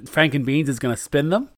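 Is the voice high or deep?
high. The voice is high-pitched.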